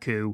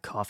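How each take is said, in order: First: The word ends in an open vowel sound. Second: The word ends in an f sound. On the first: The speaker calls it wrong. "You don't say, I've got COVID symptoms, I've got a really bad coo" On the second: The speaker calls it right. "You say, I've got a bad cough"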